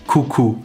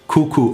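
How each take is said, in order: The two takes are said the same way.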